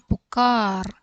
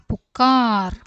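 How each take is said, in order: Both takes have the same delivery.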